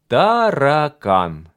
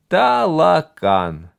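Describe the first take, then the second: First: The middle consonant is a rolled R. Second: The middle consonant is an L. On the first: The speaker calls it right. "Скажи, таракан" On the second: The speaker calls it wrong. "не умел говорить букву «Р»"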